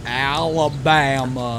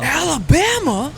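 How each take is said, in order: First: Very low, slow drawn-out Alabama twang; mock Alabama accent. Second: Alabama twang swooping up into a question; mock Alabama accent. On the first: Guessing at the accent's origin. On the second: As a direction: echo it higher, as an exaggerated Alabama question. Echoing the guessed accent's origin.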